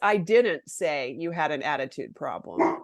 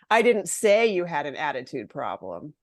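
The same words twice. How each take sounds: First: The stress falls on the word didn't. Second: The stress falls on the word say. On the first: The speaker denies having said it at all. "I didn't do it, right?" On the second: It was written rather than said. "Maybe I wrote it in an email"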